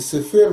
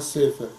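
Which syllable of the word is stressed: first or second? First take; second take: second; first. First: The stress is on the second syllable. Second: The stress is on the first syllable. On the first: The speaker calls it wrong. "Ударение не Сефер" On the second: The speaker calls it right. "мы говорим, а Сефер"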